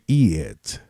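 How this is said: The vowel is changed, like Jamaican patois. "he make an inversion of the vowels"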